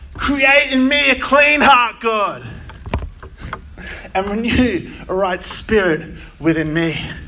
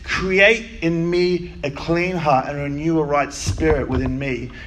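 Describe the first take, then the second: First: It is read as a desperate cry. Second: It is rattled off flatly.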